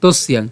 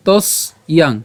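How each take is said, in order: First: তস্যাং run together as one word; joined pronunciation. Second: তস ইয়াং as two separate pieces; broken into parts. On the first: Teacher joins the split parts for learners, তস্যাং in one piece. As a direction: say তস্যাং without any break. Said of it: "উচ্চারণ করার সময় আমরা একসাথে". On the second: Teacher splits the word for learners, তস and ইয়াং said apart. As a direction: say তস, pause, then ইয়াং. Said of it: "সুবিধার জন্য আমি ভেঙে দিয়েছি". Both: Shown as a demonstration.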